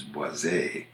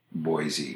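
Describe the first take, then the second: First: Boise ending in "ay", bwah-ZAY; French pronunciation. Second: Put-on Boise ending in a long E, BOY-zee; American pronunciation. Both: Shown as a demonstration. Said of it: "A versus E".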